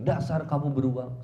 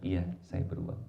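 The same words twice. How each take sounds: First: Louder name-calling jab; mock marital insult, punched out; acted angry wife. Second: Low, meek agreement; acted husband calmly conceding; kind reply. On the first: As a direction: scold the husband with raised volume. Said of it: "istrinya ketika bilang". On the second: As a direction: give in gently to the insult. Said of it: "suami balasnya dengan kebaikan".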